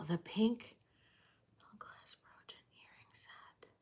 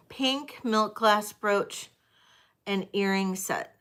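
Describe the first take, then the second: First: Whispered to herself, barely audible; whispering. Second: Said in the usual way. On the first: Real, not acted. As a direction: breathe the words under your breath. Rereading item name to herself.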